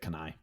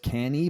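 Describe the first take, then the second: First: The name ends with an 'eye' sound. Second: The name ends with an 'ee' sound. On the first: This is the speaker's own pronunciation. "but I pronounced it Canai" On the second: This is the original Italian pronunciation. "the Italian was Cani"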